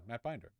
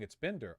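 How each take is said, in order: First: The first syllable does not sound like 'bin'. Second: The first syllable sounds like 'bin'. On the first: The speaker calls it wrong. "did I mispronounce it?" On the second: The speaker calls it right. "like Bin Laden"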